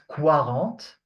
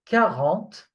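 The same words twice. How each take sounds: First: The word begins with a kw sound. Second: The word begins with a plain k sound. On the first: The speaker calls it wrong. "not quarante" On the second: The speaker calls it right. "You have to pronounce it K"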